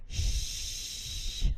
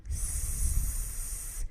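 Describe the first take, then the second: First: Unvoiced sh hiss; isolated sh, voice off; sh sound. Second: Short unvoiced s hiss from the tongue tip; isolated s hiss, voice off; s sound. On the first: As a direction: push the hiss back to sh. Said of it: "when I push it from the tip to the middle". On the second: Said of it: "when we made the S sound". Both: Shown as a demonstration.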